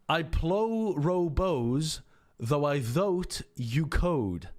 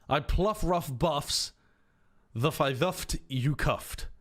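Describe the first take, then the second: First: Every 'ough' is said with an 'oh' sound. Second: Every 'ough' is said with an 'uff' sound. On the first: "Or do you use the pronunciation perhaps for though?" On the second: "Or do you use the pronunciation for rough?"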